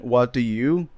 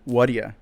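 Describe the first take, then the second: First: Each word is said fully and separately. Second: The words blend into one short reduced word.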